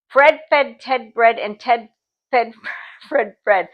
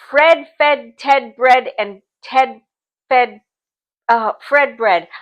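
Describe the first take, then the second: First: It is said at a faster pace. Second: It is said at a slower pace.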